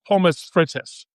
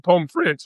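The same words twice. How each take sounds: First: It is pronounced with a German-style sound. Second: It is pronounced with a French-style sound. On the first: "That's not how it's pronounced" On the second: "Why are you using the French pronunciation for that word?"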